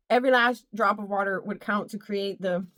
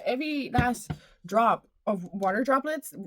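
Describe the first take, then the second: First: Said in the usual way. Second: Phrase repeated with a lilting rising lift. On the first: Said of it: "repeated phrase said plainly". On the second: Shown as a demonstration. Vlogger repeating her phrase with a rising lilt. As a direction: let it float up at the end. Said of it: "repeated phrase, far voice".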